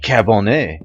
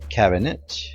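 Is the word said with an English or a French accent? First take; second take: French; English. First: It is said with a put-on French accent. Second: It is said with a plain English accent.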